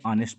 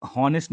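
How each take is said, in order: First: ऑनेस्ट with a silent h, opening straight on the vowel; correct pronunciation. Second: हॉनेस्ट with a clear h sound at the start; wrong pronunciation. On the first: Teacher shows students the right way: ऑनेस्ट with a silent h. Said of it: "इसको पढ़ते हैं ऑनेस्ट". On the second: Teacher shows students the wrong way, with an h on हॉनेस्ट. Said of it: "इसको हॉनेस्ट नहीं पढ़ते". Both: Shown as a demonstration.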